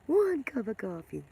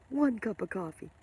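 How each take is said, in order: First: Laughing repeat. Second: Said in the usual way. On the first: Real, not acted. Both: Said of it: "like I'm vibrating on a higher level".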